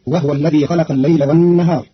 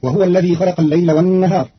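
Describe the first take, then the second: First: وهو said wahw; Qalun reading. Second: وهو said wahuwa; standard reading. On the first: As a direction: silent ha in وهو. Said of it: "فتصير". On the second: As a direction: wahuwa with voweled ha. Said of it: "بإسكان الهاء". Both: Shown as a demonstration.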